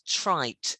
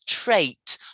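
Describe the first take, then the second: First: The vowel sounds like the 'eye' in light. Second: The vowel sounds like the 'ay' in rain. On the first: The speaker calls it wrong. "not trite" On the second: The speaker calls it right. "it has to sound more like rain. It's that A sound"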